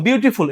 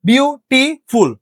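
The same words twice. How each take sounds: First: Said in the usual way. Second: beautiful slowly split as বিউ, টি, ফুল; slow teacher's breakdown, বিউ... টি... ফুল; syllable by syllable. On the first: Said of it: "এটা বলতে গেলে break দেওয়া যায়". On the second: Shown as a demonstration. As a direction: pause after each syllable of beautiful. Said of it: "হ্যাঁ, তিন syllable আছে".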